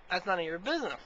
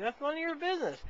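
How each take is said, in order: First: Said in the usual way. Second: High-pitched retold protest; indignant retort. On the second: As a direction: act out refusing a second time, voice jumping up. Repeated refusal, acted as more indignant.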